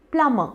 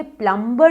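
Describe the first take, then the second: First: प्लम्बर with silent b, "plum-uh"; correct pronunciation. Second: प्लम्बर with b sounded; wrong local pronunciation. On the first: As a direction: drop the b and final r in प्लम्बर. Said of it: "इसका correct उच्चारण है". (प्लम्बर को "प्लमअ" बोलें, ब चुप) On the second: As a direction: say प्लम्बर as "plum-ber". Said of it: "ये प्लम्बर नहीं है". (प्लम्बर में ब साफ़ बोलें) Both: Shown as a demonstration.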